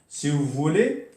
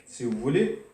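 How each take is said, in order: Both takes have the same delivery.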